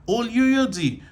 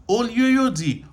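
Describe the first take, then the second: Both takes have the same delivery.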